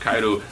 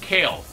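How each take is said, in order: First: The name is said with a Japanese pronunciation. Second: The name is said with an English pronunciation. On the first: "how to do it in Japanese, which is Kairu" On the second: "I kept calling it Kale"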